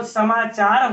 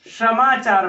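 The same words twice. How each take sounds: First: Said in the usual way. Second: "समाचार" said as shamachar, sh replacing the first s; hill-region sh for s. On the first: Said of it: "तो स को". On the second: Shown as a demonstration. Teacher showing how hill people say the word, sh for s. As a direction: open "समाचार" with a sh sound. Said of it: "श बोलते हैं".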